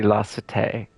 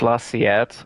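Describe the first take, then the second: First: The name sounds like French cité. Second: The name sounds like the Spanish word siete. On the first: The speaker calls it right. "but this would be La Cité" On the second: The speaker calls it wrong. "I was calling this La Siete. Siete is Spanish"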